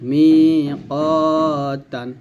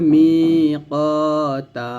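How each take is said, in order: First: The word ends with an n sound. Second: The word ends with a long a vowel. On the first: The reading continues without stopping here. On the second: The reading stops at this word.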